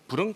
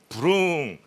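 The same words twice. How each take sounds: First: The word is said short and quick. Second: The word is drawn out long.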